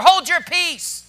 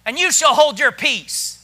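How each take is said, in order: First: Raised, slow, scolding order; blunt command. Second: Polite, measured firm instruction; said nicely. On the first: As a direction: order the complainers to be silent, firmly. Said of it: "You know what He was saying?". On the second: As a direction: state it civilly, as read from scripture. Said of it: "Now, He said it nice". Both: Acted.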